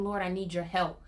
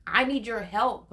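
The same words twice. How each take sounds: First: Said in the usual way. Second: "I need your help" slower and louder, leaning on "I"; pleading emphasis. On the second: Shown as a demonstration. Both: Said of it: "when I told him".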